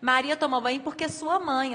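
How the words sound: The pause comes after the word 'mãe'. 'Sua' belongs to the mother. The speaker calls it wrong. "a gente não consegue fazer a tal pausa no lugar correto"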